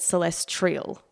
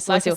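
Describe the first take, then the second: First: The word is said with an extra r sound. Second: The word is said without an extra r sound. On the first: The speaker calls it wrong. "I've always said celestial" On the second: The speaker calls it right. "the word is meant to be celestial"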